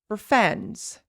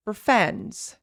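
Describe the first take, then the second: First: The word for is reduced to fur. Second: The same.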